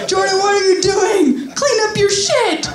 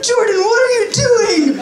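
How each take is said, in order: First: Much higher, scolding mom voice; high mock mom telling him to clean up. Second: Much higher, shocked mom voice; be mom walking in, appalled; mom's voice. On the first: Mom orders son to clean up, high scolding voice. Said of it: "She's like". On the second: Retold or imitated. Mom catches son in the litter box, high shocked voice. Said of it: "My mom's like".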